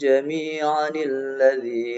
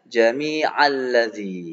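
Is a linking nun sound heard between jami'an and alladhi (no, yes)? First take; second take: yes; no. First: A linking nun sound joins jami'an to alladhi. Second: Jami'a runs into alladhi without a nun sound. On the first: The speaker calls it right. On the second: The speaker calls it wrong.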